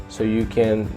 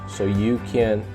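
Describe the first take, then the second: No difference in how they are said.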